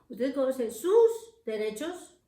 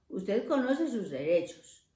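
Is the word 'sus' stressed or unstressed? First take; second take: stressed; unstressed. First: The word sus carries strong stress. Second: The word sus is said without stress. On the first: The speaker calls it wrong. "pero no acentuar sus, cuando en español eso no se acentúa" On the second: The speaker calls it right.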